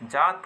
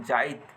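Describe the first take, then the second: First: Said in the usual way. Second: जाइत with an i sounded before the t; stressed i glide. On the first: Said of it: "बहुत आसानी से जात हो जाएला". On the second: Shown as a demonstration. Teacher contrasting it with the easy form, stressed glide in जाइत. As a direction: make the इ clear after the long aa in जाइत. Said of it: "इकर में बल लगाए के पड़त है".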